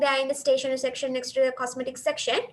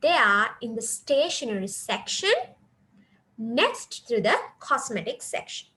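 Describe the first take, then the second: First: It runs on without any pause at all. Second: There is a pause after stationery section. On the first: The speaker calls it wrong. "if you just go on telling" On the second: The speaker calls it right. "you have to pause here after stationery section"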